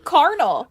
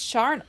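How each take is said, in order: First: The word begins with a k sound. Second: The word begins with a ch sound. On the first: The speaker calls it wrong. "I've always said carnal, like carnal urges" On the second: The speaker calls it right. "but it's charnel"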